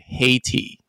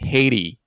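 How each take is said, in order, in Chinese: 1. 中间的 t 是清脆的 t 音。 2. 中间的 t 是快速的闪音，像 d。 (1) "字典上那样念" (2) "美式英文，假设念的快一点的话，那个T 会变成有点像的声音"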